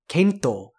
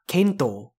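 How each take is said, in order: Both takes have the same delivery.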